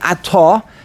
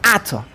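First: The stress is on the last syllable. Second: The stress is on the first syllable. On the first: The word connects to the next word. The speaker calls it wrong. "not to pronounce it ato" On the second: The phrase comes to a stop here. The speaker calls it right. "By putting a mesig under the aleph and telling you to pronounce this word ato"

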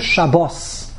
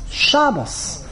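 First: The stress is on the last syllable. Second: The stress is on the first syllable. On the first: This is the Hebrew form of the word. "How do you say it in Hebrew?" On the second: This is the Yiddish form of the word.

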